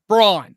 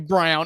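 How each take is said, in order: First: The name is said with a different vowel, like brawn. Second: The name is said like the colour brown. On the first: The speaker calls it right. "it's Braun" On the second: The speaker calls it wrong. "Don't say Brown"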